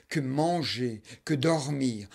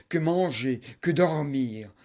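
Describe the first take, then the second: No difference in how they are said.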